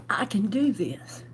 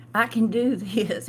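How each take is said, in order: First: Hushed whisper, talking herself into it; whispered self-talk. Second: Said in the usual way. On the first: Retold or imitated. To herself, deciding to leave with six hundred dollars, whispered. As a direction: whisper it to yourself like a private vow.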